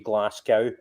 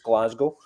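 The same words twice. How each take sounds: First: It is said like 'glass cow', American style. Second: It is said the local Scottish way.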